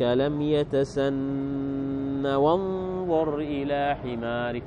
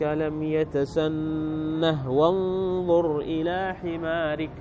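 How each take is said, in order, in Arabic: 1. الكلمة تنتهي بدون صوت هاء. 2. الكلمة تنتهي بصوت هاء. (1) "ما ذكروا الهاء" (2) "هذا قراءة السبعة"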